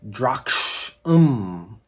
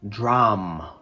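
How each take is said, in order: First: It is said in two syllables with a k sound. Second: It is said in one syllable with no k sound. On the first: The speaker calls it wrong. "It looks like Drakshum" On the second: The speaker calls it right. "it should be pronounced dram"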